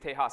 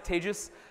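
First: The name does not rhyme with contagious. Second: The name rhymes with the word contagious. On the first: The speaker calls it wrong. "for those of you who think it's Tejas, it's not" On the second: The speaker calls it right. "That's pronounced like contagious"

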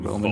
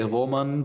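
First: The name is said with English pronunciation. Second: The name is said with German pronunciation. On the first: "the English pronunciation would be Roman" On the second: "in Germany you say Roman"

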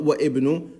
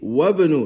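First: The initial vowel of ibnu is pronounced separately. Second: The initial vowel of ibnu is dropped and linked. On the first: The speaker calls it wrong. "not wa ibnu" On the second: The speaker calls it right. "see, wabnu"

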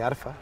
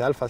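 First: It is said with an R sound before f. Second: It is said with an L sound before f. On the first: This is how it is said on islands near Italy. "se dice arfa" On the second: This is the standard pronunciation, not the local one. "no se dice alfa"

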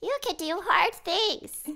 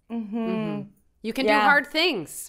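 First: It is said in a child-like put-on voice. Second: It is said in a normal adult voice.

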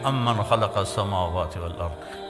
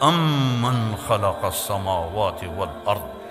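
First: It is said in a plain, unassertive tone. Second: It is said in a proud, majestic tone. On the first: The speaker calls it wrong. "ये ऐसे नहीं है" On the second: The speaker calls it right. "क्या लहजे में तकब्बुर है, मैं उसकी थोड़ी नकल उतार रहा हूँ।"

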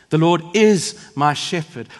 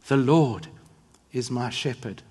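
First: The word is is stressed. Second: The word Lord is stressed.

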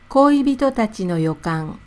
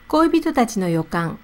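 First: It is said slowly. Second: It is said at normal speed.

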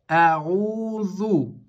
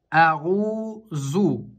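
First: The middle consonant is a th-like sound. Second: The middle consonant is a plain z sound. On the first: The speaker calls it right. "Здесь именно межзубная буква «заль»" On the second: The speaker calls it wrong. "букву «заль» как «за», обычная «зай»... Это будет ошибка"

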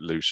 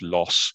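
First: The name rhymes with 'loose'. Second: The name rhymes with 'boss'. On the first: The speaker calls it wrong. "I'm not going to correct David on his pronunciation of it, I'm just going to call it Loos as well" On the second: The speaker calls it right. "Someone else better qualified can say it was Loss"

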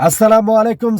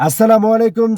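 Both takes have the same delivery.

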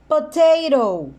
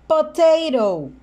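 The two takes are said the same way.

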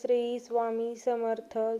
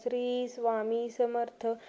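No difference in how they are said.

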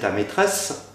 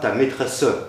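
First: The final e of maîtresse is silent. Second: The final e of maîtresse is pronounced. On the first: The speaker calls it right. "on ne prononce pas les « e » en fin de vers" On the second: The speaker calls it wrong. "et pas"

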